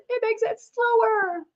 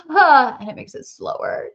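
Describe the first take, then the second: First: "It makes it slower" drawn out, slow and high. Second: Said in the usual way. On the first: Shown as a demonstration. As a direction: stretch "slower" out slowly.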